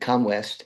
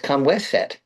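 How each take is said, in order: First: The name ends with the single syllable 'west'. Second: The name ends with the two syllables 'waset'. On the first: The speaker calls it wrong. "pronounced it Comwest" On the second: The speaker calls it right. "It's Kamweset"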